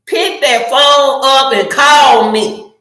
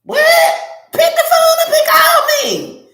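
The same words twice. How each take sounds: First: Slow, firm demand to call; insistent, drawn-out order; emphatic demand. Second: Very high-pitched, incredulous cry; squeaky, exasperated demand; exasperated squeal. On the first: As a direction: spell it out slowly, raised in pitch. Demands a phone call over texting. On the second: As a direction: shoot way up high in mock disbelief. Acts out exasperation at texting. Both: Acted.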